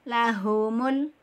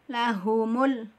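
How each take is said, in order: Both takes have the same delivery.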